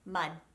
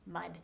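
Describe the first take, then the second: First: The final D is held silent, not released. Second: The final D is released softly. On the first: "sounds like a silent D ... All I'm doing is placing my tongue right here" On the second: "the D at the end of a word would just be a really soft D sound"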